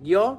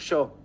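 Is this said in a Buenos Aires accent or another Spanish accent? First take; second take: other; Buenos Aires. First: It is said in a non-Buenos Aires Spanish accent. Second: It is said in a Buenos Aires Spanish accent. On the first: "en vez de decir yo" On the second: "nosotros decimos yo"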